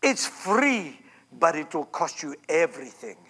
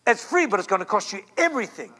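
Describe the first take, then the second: First: Imitating her theatrical whisper-preach; Kathryn Kuhlman's manner. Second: Said in the usual way. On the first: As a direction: sink low and soft like a dramatic healer. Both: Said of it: "she'd say things like".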